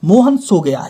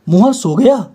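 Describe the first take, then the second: First: It is said as a plain, level statement. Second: It is said as a questioning sentence. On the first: Mohan has fallen asleep, simply stated. "ये है साधारण वाक्य" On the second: Asking whether Mohan has fallen asleep. "ये वाक्य हो जाएगा प्रश्न सूचक वाक्य"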